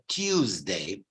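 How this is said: It is said in a posh British accent. "the posh received pronunciation people would say Tuesday"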